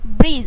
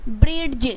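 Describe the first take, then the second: First: No d sound is heard before the end. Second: A clear d sound is heard before the end. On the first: The speaker calls it right. "यहाँ पे ब्रिज पढ़ना है" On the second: The speaker calls it wrong. "ब्रिड्ज नहीं पढ़ना है आपको"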